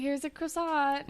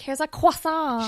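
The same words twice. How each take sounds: First: The word croissant is said plainly. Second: The word croissant is said overpronounced.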